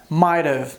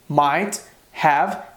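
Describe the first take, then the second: First: The word have is reduced and joined to might. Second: The word have is pronounced fully and separately.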